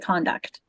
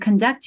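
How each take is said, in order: First: The stress is on the first syllable. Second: The stress is on the second syllable. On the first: It is used as a noun. "your conduct" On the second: It is used as a verb. "to conduct yourself"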